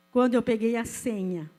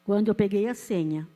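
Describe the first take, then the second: No difference in how they are said.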